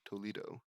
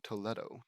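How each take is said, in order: First: Toledo with an "ee" middle vowel; English pronunciation. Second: Toledo with an "eh" middle vowel; Spanish-style pronunciation. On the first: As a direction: say Toledo as "toh-LEE-doh". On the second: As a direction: say Toledo as "toh-LEH-doh". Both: Real, not acted. Tries two pronunciations of place.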